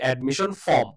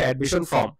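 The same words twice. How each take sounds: First: The r in form is silent. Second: The r in form is pronounced. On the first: The speaker calls it right. "আর এর উচ্চারণটা হবে না" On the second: The speaker calls it wrong. "আমরা সবাই বলি হচ্ছে"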